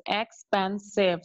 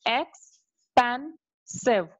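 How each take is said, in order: First: Said in the usual way. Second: Expensive drawn out slowly, ex-pen-sive; syllable by syllable. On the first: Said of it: "So there are three syllables". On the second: Shown as a demonstration. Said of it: "So three syllables are there".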